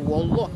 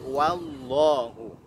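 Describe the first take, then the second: First: The word ends on the h consonant. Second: The word ends with a final u vowel. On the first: The speaker calls it wrong. "jangan terbaca wallah" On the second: The speaker calls it right. "tapi wallahu"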